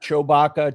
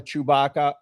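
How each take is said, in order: First: Chewbacca said "show-bacca"; Dominic's way of saying it. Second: Chewbacca said "choo-bacca"; standard pronunciation. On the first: Mimicking the host's odd Chewbacca, "show-bacca". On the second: Giving the usual Chewbacca after the host's version, "choo-bacca". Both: Shown as a demonstration. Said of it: "tomato, tomato".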